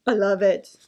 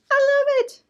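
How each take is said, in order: First: Said in the usual way. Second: Much higher, louder excited squeal; delighted squeal. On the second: Real, not acted. Host thrilled by hair bows, high delighted squeal. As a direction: squeal it out with joy.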